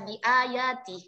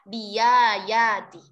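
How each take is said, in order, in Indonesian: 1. Hamza tetap dibaca sebagai hamzah (glottal stop). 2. Hamza diganti dengan bunyi y.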